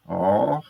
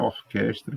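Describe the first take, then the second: First: Syllable by syllable. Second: Said in the usual way. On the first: Shown as a demonstration. Teacher showing mouth movements in Orquestra, syllable by syllable. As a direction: break Orquestra into three isolated syllables. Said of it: "É só prestar atenção aos movimentos". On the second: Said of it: "que tem três sílabas".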